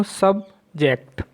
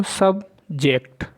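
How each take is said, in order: First: subject with the stress on जेक्ट, said as sub-JECT; stress on second syllable. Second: subject with the stress on सब, said as SUB-ject; stress on first syllable. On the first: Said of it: "और एक मैंने जेक्ट... second syllable है उस पर जोर डाला". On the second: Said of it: "एक बार मैंने सब... फर्स्ट सिलेबल है उस पर ही एम्फेसिस किया". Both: Shown as a demonstration.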